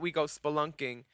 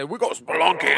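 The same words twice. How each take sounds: First: It is said in the speaker's normal voice. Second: It is said in a silly put-on voice.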